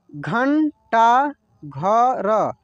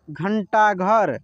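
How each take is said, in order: First: घंटा घर stretched slowly with weight on घंटा; slow syllable reading. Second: Said in the usual way. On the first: Shown as a demonstration. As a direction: read घंटा घर slowly, word by word. (घंटा घर धीरे धीरे, घंटा पर ज़ोर) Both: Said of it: "जैसे जैसे मैं पढ़ रहा हूँ ना".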